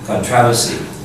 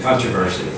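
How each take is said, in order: First: It is said in a British pronunciation. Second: It is said in an American pronunciation. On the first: "A Brit will tell you" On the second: "American will tell you"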